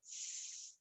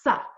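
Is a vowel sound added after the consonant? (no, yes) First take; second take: no; yes. First: The consonant is said alone, with no vowel. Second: The consonant is followed by a short uh vowel. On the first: The speaker calls it right. "The first sound is s" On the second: The speaker calls it wrong. "We don't say the uh sound"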